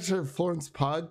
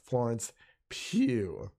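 First: The surname ends with a hard g sound. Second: The surname ends without any g sound. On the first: The speaker calls it wrong. "I thought it was Pug for the longest time" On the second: The speaker calls it right. "But yes, Florence Pugh"

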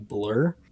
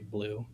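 First: The vowel sounds like the one in blur. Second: The vowel sounds like the one in blue. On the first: "the actual like pronunciation of that is actually blur" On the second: "I still say blue"

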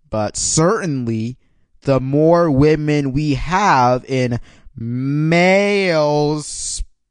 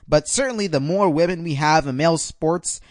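First: It is said slowly and deliberately. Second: It is said at a normal speed.

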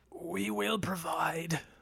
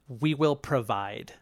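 First: It is said in a put-on character voice. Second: It is said in the speaker's normal voice.

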